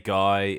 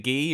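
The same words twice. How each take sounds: First: The name is said like the English word. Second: The name is said with a French pronunciation. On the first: This is how the name is said locally. "we would say" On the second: This is how the name is said in the film. "Are we going to go French and say"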